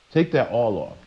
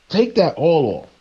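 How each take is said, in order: First: Settled quiet command; quieter repeat. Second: Higher, emphatic command to cut the hair; insistent divine command; raised commanding order. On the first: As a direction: drop it down and repeat it firmly. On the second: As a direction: bark the order up high. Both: Retold or imitated. God commanding the prophet.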